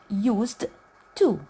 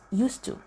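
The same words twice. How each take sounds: First: The d and t are pronounced separately. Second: The d and t blend into one sound. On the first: The speaker calls it wrong. "I supposed to say used to. It will be hard to pronounce" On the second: The speaker calls it right. "we just connect it together and it becomes used to"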